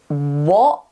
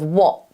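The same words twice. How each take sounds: First: The t is replaced by a throat stop. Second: The t is pronounced as a clear t. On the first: "a good example would be something like what" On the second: "instead of what"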